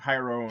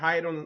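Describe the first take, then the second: First: The name is pronounced with English sounds. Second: The name is pronounced with Spanish sounds. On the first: "in English" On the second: "in español"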